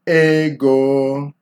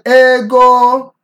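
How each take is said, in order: First: The word is pitched in the middle range. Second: Both syllables are said on a high pitch. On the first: The speaker calls it right. "You want to strike it in the middle" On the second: The speaker calls it wrong. "that would be high, high"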